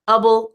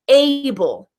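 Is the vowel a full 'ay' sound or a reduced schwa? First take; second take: schwa; full. First: The vowel is reduced to a weak schwa. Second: The vowel is a full, stressed 'ay' sound. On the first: It is the unstressed suffix in a longer word. "the schwa" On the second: It is the word on its own. "Able has the accented A"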